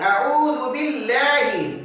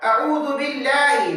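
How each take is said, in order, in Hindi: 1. L हल्का और पतला है, होंठ गोल नहीं। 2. L हल्का और पतला है, होंठ गोल नहीं।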